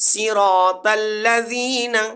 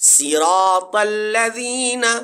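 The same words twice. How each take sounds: The two takes are said the same way.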